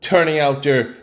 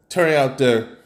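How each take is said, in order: Both takes have the same delivery.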